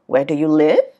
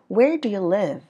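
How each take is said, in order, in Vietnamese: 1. Giọng đi lên ở cuối câu. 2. Giọng đi xuống ở cuối câu. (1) "nó không đi lên như vậy mọi người nha" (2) "Thường nó sẽ là"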